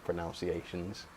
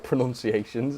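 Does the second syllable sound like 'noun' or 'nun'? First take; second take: noun; nun. First: The second syllable sounds like 'noun'. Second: The second syllable sounds like 'nun'. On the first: The speaker calls it wrong. "my terrible pronunciations" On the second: The speaker calls it right. "as it's supposed to be said"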